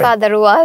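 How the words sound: An r sound is heard after father. "But আমেরিকানরা আর করবে"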